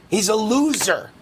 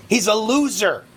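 Both takes have the same delivery.

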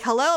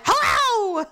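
First: Said in the usual way. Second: High, louder mock-angry hello; irritated snap back. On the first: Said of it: "she's like". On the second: Hurt woman answering a greeting, high irritated yell. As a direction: throw the greeting back in pain. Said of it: "I'm in pain".

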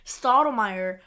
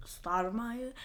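First: Stottlemyre said firmly as a statement; confirming. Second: Stottlemyre said softly as a question. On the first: Host correcting to the character's name, firm Stottlemyre. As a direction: settle on Stottlemyre, firmer and fuller. Settles the name after querying it. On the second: Host unsure of a character's name, softly questioning Stottlemyre. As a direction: query the name Stottlemyre, trying it out. Checks the name, then settles it. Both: Real, not acted.

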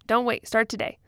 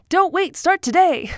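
First: Said in the usual way. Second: High, loud vintage radio announcer; old-timey radio voice. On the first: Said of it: "It sounds like, like an ad for". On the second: Shown as a demonstration. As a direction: sell it like a 1940s radio ad. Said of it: "Put on my old-timey radio voice".

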